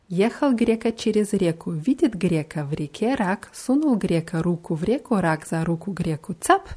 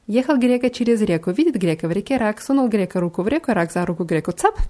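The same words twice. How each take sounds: First: It is said moderately fast. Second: It is said very fast.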